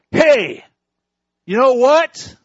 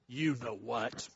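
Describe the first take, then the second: First: High, loud parrot squawk; cheeky parrot. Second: Low, soft knowing punchline; sly parrot. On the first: Parrot taunting the shopping couple, high loud squawk. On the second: Parrot slyly answering the husband, low soft and smug. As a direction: drop it down, smug and quiet. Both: Acted.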